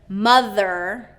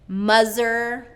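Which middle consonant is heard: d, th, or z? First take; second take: th; z. First: The middle consonant is a voiced th sound. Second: The middle consonant is a z sound. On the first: The speaker calls it right. "the voiced T H sound" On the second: The speaker calls it wrong. "substituting a Z"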